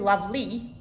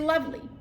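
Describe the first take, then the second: First: The final vowel is a full, distinct vowel. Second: The final vowel is an in-between sound. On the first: The speaker calls it wrong. "you don't say lovely" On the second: The speaker calls it right. "you say lovely. There's something in between"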